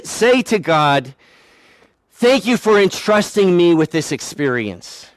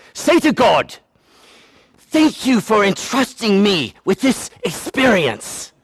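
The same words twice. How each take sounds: First: Said in the usual way. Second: Hammed-up English accent, higher pitched. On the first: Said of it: "that's not how she said it". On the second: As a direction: imitate an English lady with a mock accent. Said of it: "because she's from England".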